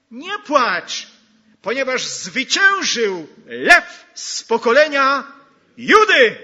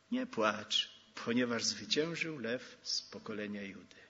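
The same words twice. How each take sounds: First: Ringing, rising preacher's cry, much louder and higher; triumphant full-voice proclamation; proclaimed shout. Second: Gentle, hushed reassurance; quiet echo of the cry; soft, lower repeat. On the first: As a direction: call it out over the whole hall. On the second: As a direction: say it quietly and lower, almost to oneself. Same words repeated softly. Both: Acted.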